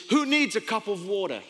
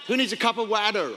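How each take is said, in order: First: Said in the usual way. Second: Put-on American twang on water; imitated American pronunciation; American accent. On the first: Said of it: "I have an accent". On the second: Shown as a demonstration. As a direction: ask it American-style, water as "wadder". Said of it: "if you're American, it's water".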